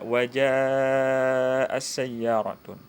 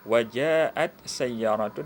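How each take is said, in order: First: The t merges into a doubled s sound. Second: A t sound is heard before sayyaratun.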